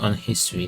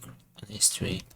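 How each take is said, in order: First: The h in history is pronounced. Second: The h in history is silent. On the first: The speaker calls it wrong. "that doesn't really sound right" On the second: The speaker calls it right. "Probably the age was silent"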